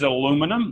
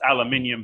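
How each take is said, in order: First: It is said in a North American pronunciation. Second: It is said in a non-North American pronunciation. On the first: The speaker calls it wrong. "you North Americans pronounce everything wrong" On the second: The speaker calls it right. "Well, it's aluminium"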